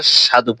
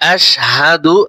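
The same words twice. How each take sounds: First: The h sound is dropped. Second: The h sound is clearly pronounced. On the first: The speaker calls it wrong. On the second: The speaker calls it right.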